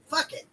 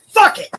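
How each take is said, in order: First: It is said in a relaxed, calm tone. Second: It is said in a sharp, intense tone. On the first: A relaxed acceptance of letting things go. "a more like relaxed and calm version of the same thing" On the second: A reckless, defiant attitude of not caring. "In high school, the mantra would have been"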